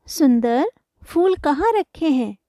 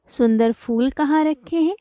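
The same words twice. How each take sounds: First: सुंदर said alone as an address, then a clear pause before the question; pause after सुंदर. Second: सुंदर joined straight onto फूल as its adjective; no pause after सुंदर. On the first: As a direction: call सुंदर, stop briefly, then slowly ask the rest. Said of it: "सुंदर से हम पूछ रहे हैं". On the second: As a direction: run सुंदर फूल together as one phrase. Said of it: "फूलों की सुंदरता के बारे में". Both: Shown as a demonstration.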